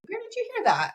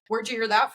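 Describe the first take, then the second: First: The question sounds gentle and curious. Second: The question sounds sharp and accusing. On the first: The adult simply wants to know more. The speaker calls it right. "with a really curious tone" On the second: The child seems to be in trouble for asking. The speaker calls it wrong. "Not like in a like"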